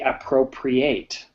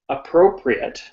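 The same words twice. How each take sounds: First: It is said with the verb pronunciation. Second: It is said with the adjective pronunciation. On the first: Something is taken. "As a verb, we say appropriate" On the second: Something is suitable. "So as an adjective, we say appropriate"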